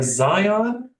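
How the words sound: It is said with an English pronunciation. "in English"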